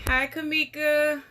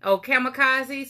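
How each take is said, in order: First: Kamika clipped short, missing the last syllable; name said wrong. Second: Kamikaze said in full as ka-muh-KAH-zee, ending on a clear zee; catching the slip and saying Kamikaze properly; name corrected. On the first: Greeting a viewer, getting her name wrong. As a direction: slips and says Kamika instead of the full name. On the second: Correcting a viewer's name after a slip, carefully. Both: Real, not acted. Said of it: "Sorry about that".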